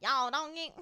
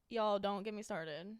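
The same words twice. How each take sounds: First: Loud, broad mock country "Y'all"; exaggerated country twang. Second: Lightly country "Y'all", slowed down; slow, mildly mad country phrasing. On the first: Host mocking how she doesn't say it, broad country. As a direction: ham up the country accent. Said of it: "I'm not like". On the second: Host showing how she talks when mad, mildly country. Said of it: "Like, when I'm mad". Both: Shown as a demonstration.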